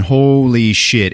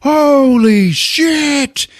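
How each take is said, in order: First: HOLY SHIT stretched slowly in storytelling voice; drawn-out emphasis. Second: Very high, drawn-out "holy shit"; mock horrified cry, stretched long; shocked exclamation. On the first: Retold or imitated. Storyteller revealing the cooler, "holy shit" drawn out. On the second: Everybody seeing the heart, stretched shocked cry.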